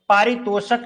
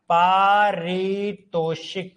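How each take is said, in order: First: The vowel after the sh is a. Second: The vowel after the sh is i. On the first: The speaker calls it wrong. "पारितोषक नहीं होता" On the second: The speaker calls it right. "पारितोषिक होता है"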